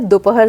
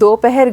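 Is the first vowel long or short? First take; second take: short; long. First: The first vowel is said short. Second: The first vowel is said long. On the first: The speaker calls it right. "सही" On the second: The speaker calls it wrong. "गलत है"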